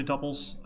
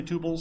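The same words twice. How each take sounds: First: "tuples" pronounced TUP-pulls; short-vowel tuples. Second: "tuples" pronounced TOO-pulls; long-vowel tuples. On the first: Lecturer quoting how other people say it, "tuples" as TUP-pulls. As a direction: give "tuples" a short uh in the first syllable. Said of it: "some people say tuples". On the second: Lecturer giving own habitual pronunciation, "tuples" as TOO-pulls. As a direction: give "tuples" a long oo in the first syllable. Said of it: "I always say tuples". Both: Shown as a demonstration.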